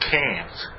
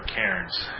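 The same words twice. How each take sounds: First: The R sound in the word is dropped. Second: The R sound in the word is pronounced. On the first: The speaker calls it right. "It's supposed to be Cairns" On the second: The speaker calls it wrong. "I'm told I'm not supposed to pronounce the R in Cairns"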